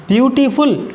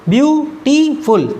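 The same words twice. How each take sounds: First: beautiful in three joined beats; three syllables. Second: beautiful slowly broken view, टी, फुल; three syllables. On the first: Teacher introducing the example, beautiful in measured syllables. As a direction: say beautiful whole but measured, each syllable clear. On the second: Teacher counting syllables, beautiful split in three slow beats. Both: Shown as a demonstration. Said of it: "तीन syllable का".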